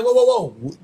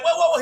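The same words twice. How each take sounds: First: Firm mock "hold it right there"; lightly acted warning; retold challenge. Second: High-pitched mock panic; higher, startled protest, imitated; retold alarm. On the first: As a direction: act out armed men halting someone. Retells gunmen confronting a woman. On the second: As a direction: act out someone suddenly held at gunpoint. Retells woman facing the guns.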